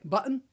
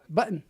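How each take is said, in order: First: The word sounds like a Scottish accent. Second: The T in the middle is silent. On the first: The speaker's own attempt at the style. "when I say it button, it sounds like I'm Scottish" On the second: A young generation's casual way of talking. "when they say it, it sounds, button ... It's silent T"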